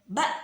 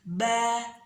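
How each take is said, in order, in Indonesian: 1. Vokalnya dihentikan oleh hamzah. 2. Vokalnya dilepas terbuka tanpa hentian. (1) "tidak boleh ba, ta, nggak boleh gitu, nggak boleh kayak ada remnya" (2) "jadi dilepas ba"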